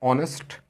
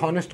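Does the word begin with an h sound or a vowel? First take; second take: vowel; h sound. First: The word begins with a vowel, no h sound. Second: The word begins with an audible h sound. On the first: This is how it is said today. "आज इसे ऑनेस्ट पढ़ा जाता है" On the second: Someone might say it this way in future. "हो सकता है कल को इसे कोई हॉनेस्ट कर दे"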